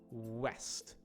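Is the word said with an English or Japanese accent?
English. Said with a natural English strong W sound. The speaker calls it right.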